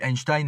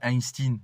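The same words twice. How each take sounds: First: The last syllable rhymes with 'ine'. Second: The last syllable rhymes with 'een'. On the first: The speaker calls it right. "pourquoi on dit Einstein" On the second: The speaker calls it wrong. "et pas Einstein"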